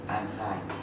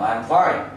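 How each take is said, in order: First: It is said flat, without a puff of air. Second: It is said forcefully, with a puff of air. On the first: The speaker calls it wrong. "Người Việt mình nói là" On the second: The speaker calls it right.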